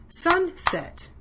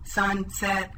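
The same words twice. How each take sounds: First: Sunset said in two clear beats, SUN then SET, to a clap; sing-song Sunset with a falling end, one beat per syllable; clapping the syllables. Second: Sunset chopped into two flat, even pieces, SUN and SET; level robot monotone, one piece per syllable; robot speak. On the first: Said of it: "Clap with me as I say these words". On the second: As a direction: chop Sunset apart like a robot. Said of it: "Let's say these words like the robot". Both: Shown as a demonstration.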